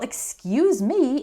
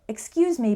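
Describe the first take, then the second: First: It is said in a rude, sarcastic tone. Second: It is said in a polite, courteous tone. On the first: The speaker resents being criticized. "you can say it rudely or sarcastically" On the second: The speaker disagrees respectfully. "You can say it politely"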